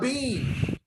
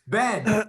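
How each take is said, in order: First: The vowel is long, like 'bean'. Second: The vowel is short, like 'Ben'. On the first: The speaker calls it wrong. "It's not a bean" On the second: The speaker calls it right. "We say Ben"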